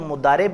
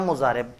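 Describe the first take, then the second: First: The middle consonant is a d sound. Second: The middle consonant is a z sound. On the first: "मुदारिब या मुजारिब दोनों तरह से बोलते हैं" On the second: "मुदारिब या मुजारिब दोनों तरह से बोलते हैं"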